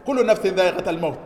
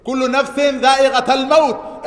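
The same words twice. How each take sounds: First: Fast, level spoken recap of the verse; quick plain repeat. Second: High, loud chanted Quran verse; sung, intone the verse out with full force; sung, loud recitation. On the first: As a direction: rattle the verse off quickly in the normal voice. Repeating verse after translation. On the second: Quoting Quran verse in sermon. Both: Real, not acted.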